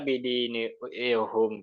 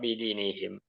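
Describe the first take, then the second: First: The final syllable has the vowel u: hum. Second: The final syllable has the vowel i: him. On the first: The speaker calls it wrong. "kenapa nggak bidinihum?" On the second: The speaker calls it right. "untuk meringankan"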